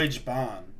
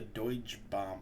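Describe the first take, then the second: First: The last word sounds like 'bahn'. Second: The last word sounds like 'bomb'. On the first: The speaker calls it right. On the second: The speaker calls it wrong.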